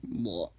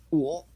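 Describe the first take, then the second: First: Whispered whoa. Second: Loud mock whoa. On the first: Retold or imitated. Po standing with peaches in mouth, hushed "Whoa.". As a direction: let the "Whoa." slip out breathless. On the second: Po stunned, peaches in mouth.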